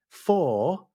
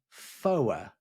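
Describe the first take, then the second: First: It rhymes with 'more', one syllable. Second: It rhymes with 'lower', two syllables. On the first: This is the everyday pronunciation. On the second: This is the aviation radio pronunciation.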